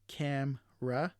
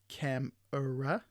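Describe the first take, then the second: First: The middle vowel is dropped from the word. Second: The middle vowel is fully pronounced in the word. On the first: "the sounds in brackets aren't um, are de-stressed or omitted" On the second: "instead of"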